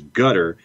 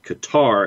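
First: The name sounds like the word gutter. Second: The name does not sound like gutter. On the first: The speaker calls it right. "The closest in English is gutter" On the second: The speaker calls it wrong. "definitely not Qatar, as is frequently heard"

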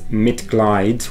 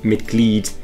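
First: The second vowel sounds like English 'eye'. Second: The second vowel sounds like English 'ee'. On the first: The speaker calls it wrong. "A lot of students would mispronounce that and pronounce it as Mitglied, which is incorrect" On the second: The speaker calls it right. "when E and I go walking, the second one does the talking"

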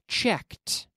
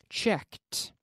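The two takes are said the same way.

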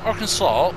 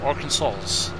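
First: The word ends with a 'saw' sound. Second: The word ends with a 'sas' sound.

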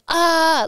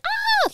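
First: A full, low yell from the chest. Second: A high, thin falsetto scream. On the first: The speaker calls it right. "like yelling it from my core" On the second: The speaker calls it wrong. "not like, ah, like falsetto scream"

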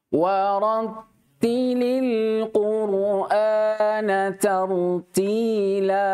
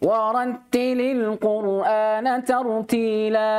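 First: The verse is recited slowly and carefully. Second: The verse is recited quickly. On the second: "perhatikan hadar ya"

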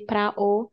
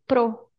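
First: The two words are kept as separate syllables. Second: The two words merge into one syllable. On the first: "I don't say pra o" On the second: "when I speak fast, I say pro. So I make them together"

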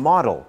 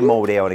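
First: It is said with an English pronunciation. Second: It is said with a Thai loanword pronunciation. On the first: The speaker calls it right. "ลองดูนะครับ" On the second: The speaker calls it wrong. "ไม่ใช่โมเดลนะครับ"

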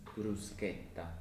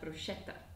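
First: The middle consonant is a hard 'k' sound. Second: The middle consonant is a soft 'sh' sound. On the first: The speaker calls it right. "The correct pronunciation is bruschetta" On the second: The speaker calls it wrong. "which is often pronounced as bruschetta"

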